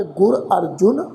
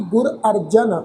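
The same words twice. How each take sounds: First: ਗੁਰ ਅਰਜੁਨ slow, with a clear u on ਜੁ; correct pronunciation. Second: ਗੁਰ ਅਰਜਨ said without the u on ਜ; wrong pronunciation. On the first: Teacher models the right reading of the Guru's name, slowly. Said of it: "ਇਹਦਾ ਉਚਾਰਨ ਤੁਸੀਂ ਸਿੱਖ ਲਓ". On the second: Teacher shows the common wrong reading of the Guru's name. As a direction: show the common mistake: ਅਰਜਨ. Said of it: "ਇਸ ਢੰਗ ਦੇ ਨਾਲ ਪਾਠ ਉਚਾਰਨ ਨਹੀਂ ਕਰਨਾ". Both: Shown as a demonstration.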